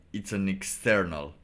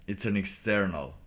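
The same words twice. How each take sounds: The two takes are said the same way.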